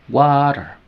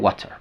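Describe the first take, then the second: First: The middle t is a quick flap. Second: The middle t is a clear t. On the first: "estoy sonando la R flap, T, sonando como R" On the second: "Normalmente sería water"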